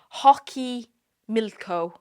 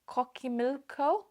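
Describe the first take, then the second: First: The name begins with an h sound. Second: The name begins with a k sound. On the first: The speaker calls it right. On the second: The speaker calls it wrong.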